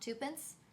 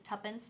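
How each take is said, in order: First: The name begins with a long 'two' sound. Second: The name begins with a short 'tup' sound. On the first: The speaker calls it wrong. "not Twopence" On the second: The speaker calls it right. "It is Tuppence"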